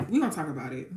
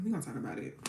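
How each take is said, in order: First: Said in the usual way. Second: Same words again, dropped much softer; softer repeat. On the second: Real, not acted. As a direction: echo it quietly to yourself.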